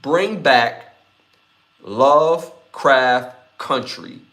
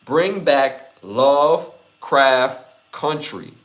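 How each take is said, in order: Both takes have the same delivery.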